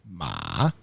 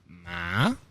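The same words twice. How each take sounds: First: The pitch dips down and comes back up. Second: The pitch rises toward the end. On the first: "Third one is a check mark" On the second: "It's a rising tone"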